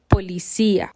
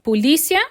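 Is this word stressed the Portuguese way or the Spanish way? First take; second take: Spanish; Portuguese. First: It carries the Spanish stress pattern. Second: It carries the Portuguese stress pattern. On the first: "em espanhol eu falo policia" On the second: "Em português eu digo polícia"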